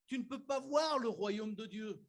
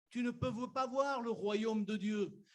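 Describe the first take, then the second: No difference in how they are said.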